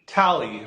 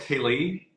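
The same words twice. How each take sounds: First: "Tally" with a short a, falling at the end; corrected name. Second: "Tali" with a long ay in the first syllable; mispronounced name. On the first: Host repeating guest's correction, "Tally" said TAL-ee. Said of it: "totally making your name sound more". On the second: Host checking guest's name, "Tali" said TAY-lee. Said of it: "am I pronouncing your name correct". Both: Real, not acted.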